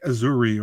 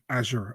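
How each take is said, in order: First: The name ends with an added 'ee' vowel. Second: The name ends without an extra vowel. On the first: The speaker calls it wrong. "I was going like Azuri" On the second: The speaker calls it right. "weirdest pronunciation ever of a fighter's name"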